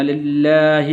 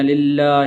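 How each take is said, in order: First: للہ with a short final ha; للہ ending crisply on a short ha; correct pronunciation. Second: للہ with the final ha wrongly lengthened; للہ ending in a long ha like a ya; wrong pronunciation. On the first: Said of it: "بلکہ اس کو اس طرح پڑھنا". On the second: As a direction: drag out the ha at the end of للہ. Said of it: "غلطی کرتے ہیں اور اس طرح پڑھتے ہیں". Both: Shown as a demonstration.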